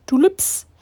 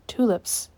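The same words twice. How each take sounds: First: High, loud burst of delight; thrilled discovery; excited exclamation. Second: Said in the usual way. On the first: Real, not acted. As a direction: exclaim it with a sudden jump in pitch. Repeats it, delighted at the flowers.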